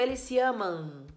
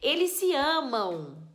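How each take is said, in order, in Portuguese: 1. A última sílaba termina em M fechado. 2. A última sílaba termina em som nasal de 'ow'. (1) "eu não digo eles se amam" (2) "eu digo eles se amam. Parece até que tem o U escrito"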